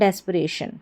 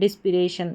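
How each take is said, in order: First: The word begins with 'dess' and says 'puh'. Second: The word begins with 'diss' and says 'pi'. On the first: The speaker calls it right. "तो इसका उच्चारण है, इसको पढ़ा जाएगा डेस्परेशन" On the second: The speaker calls it wrong. "डिस्पिरेशन पढ़ देंगे तो गलत हो जाएगा"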